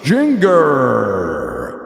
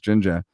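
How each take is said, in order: First: It is said to rhyme with finger. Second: It is said like the word ginger. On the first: Someone unfamiliar with the band read the name from its spelling. "we spelt it like finger, except with a J" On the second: This is how the band and its home fans say the name. "you say it just ginger"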